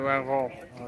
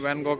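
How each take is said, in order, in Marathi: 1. हे नाव डच उच्चाराने म्हटले जाते. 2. हे नाव भारतीय उच्चाराने म्हटले जाते. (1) "त्यांच्या भाषेमध्ये व्हॅन गॉग असा उच्चार आहे" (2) "आपण व्हॅन गॉग म्हणतो"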